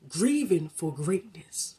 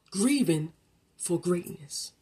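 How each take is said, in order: First: Grieving for greatness drawn out slowly, each word weighted; slow emphatic repeat. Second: Said in the usual way. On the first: Shown as a demonstration. Repeating the title for listeners, slow and weighty. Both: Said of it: "I'm gonna say it one more time".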